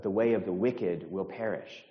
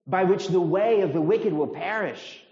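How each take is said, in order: First: Said in the usual way. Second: High, loud, emphatic disbelief; incredulous scorn. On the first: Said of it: "this is how it sounds". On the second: Acted. Preacher voicing the psalm's scorn to the congregation, incredulous. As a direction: drive it home as utterly obvious. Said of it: "It's saying, I mean".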